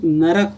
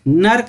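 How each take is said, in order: First: The word is said as two syllables, na-rak. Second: The word is said as one syllable, nark. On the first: This is the standard correct form. The speaker calls it right. "इसका शुद्ध रूप नरक होता है" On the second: This is the everyday spoken form. The speaker calls it wrong. "नर्क नहीं होता है, जैसे जनरली बोलचाल में नर्क बोलते हैं"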